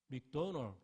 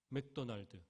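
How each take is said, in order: First: It is said the American way, clipped ending. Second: It is said with full Korean syllables. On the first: Americans will understand it. The speaker calls it right. "어떻게 얘기해야 돼요? 맥도널 이래야 돼요" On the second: Americans will not understand it. The speaker calls it wrong. "이렇게 물으면 죽을 때까지 햄버거 못 먹습니다"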